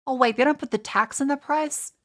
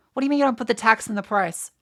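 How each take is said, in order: First: Higher, outraged disbelief; indignant surprise. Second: Louder, rapid outraged question; fast angry rant. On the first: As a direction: catch the hidden tax in disbelief. Discovers hidden tax, indignant. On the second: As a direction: fire it off in fury. Ranting about American pricing. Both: Real, not acted.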